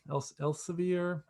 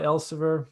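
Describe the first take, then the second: First: "Els-, Elsevier" said haltingly, restarting the name; unsure pronunciation. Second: Said in the usual way. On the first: Real, not acted. Lecturer unsure of a publisher's name, tentative second try at "Elsevier". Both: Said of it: "I forgot how to pronounce it".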